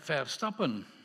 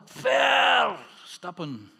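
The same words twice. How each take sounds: First: The stress is not on the first syllable. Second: The stress is on the first syllable. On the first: To misstep. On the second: To step far.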